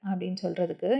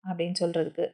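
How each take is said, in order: No difference in how they are said.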